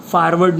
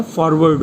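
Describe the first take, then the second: First: फॉरवर्ड said the wrong way, the first vowel slurred toward a short 'a'; wrong pronunciation. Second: फॉरवर्ड with a clear rounded 'for' at the start; correct pronunciation. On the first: Teacher showing students the wrong way to say the word. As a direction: give फॉरवर्ड as the common mistake, with no clear 'o' in the first syllable. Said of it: "फॉरवर्ड नहीं होता है". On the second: Teacher giving students the right way to say the word. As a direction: say फॉरवर्ड properly, opening on a round 'o'. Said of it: "फॉरवर्ड होता है". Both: Shown as a demonstration.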